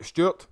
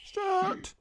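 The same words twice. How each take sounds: First: Stuart called out loud, a bit higher; loud call of the name. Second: Stuart squeaked out much higher, in a falsetto; squeaky high repeat. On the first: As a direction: call Stuart like greeting a mate across a bar. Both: Real, not acted. Greeting viewer Stuart, then again higher.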